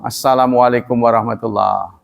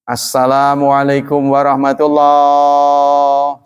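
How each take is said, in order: First: The greeting is said at ordinary speaking length. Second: The greeting is stretched out and drawn long. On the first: The speaker calls it right. "Ya biasa aja kalau orang ngomong" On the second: The speaker calls it wrong. "Kan kita suka dengar tuh dipanjangin"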